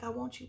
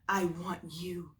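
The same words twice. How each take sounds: First: Want and you blend together into 'wan-choo'. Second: Want and you are said as separate words. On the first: "It's like" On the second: "They're not like"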